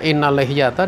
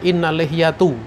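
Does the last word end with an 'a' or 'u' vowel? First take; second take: a; u. First: The last word ends with an 'a' vowel. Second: The last word ends with a 'u' vowel. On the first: The speaker calls it right. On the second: The speaker calls it wrong. "dia baca"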